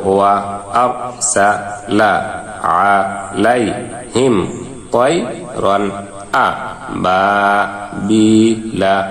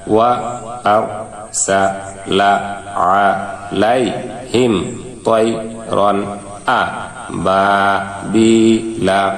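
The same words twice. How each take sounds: The two takes are said the same way.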